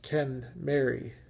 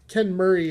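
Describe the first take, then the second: First: The second part sounds like 'Mary'. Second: The second part sounds like 'Murray'. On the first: The speaker calls it right. "proper pronunciation is Ken Mary, as in Ken and Mary" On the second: The speaker calls it wrong. "the common pronunciation"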